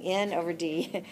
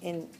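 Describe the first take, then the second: First: The phrase is said slowly and clearly. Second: The phrase is said quickly and run together. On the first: "I'm saying N over D" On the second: "if I say it fast"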